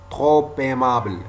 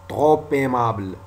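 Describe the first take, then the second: The two takes are said the same way.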